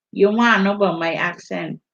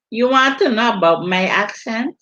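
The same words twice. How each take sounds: First: Quick, clipped-off Virgin Islands accent with dropped consonants. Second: Said in the usual way. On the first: Shown as a demonstration. Asked about her accent, she answers in a Virgin Islands accent. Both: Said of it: "where's the accent from?".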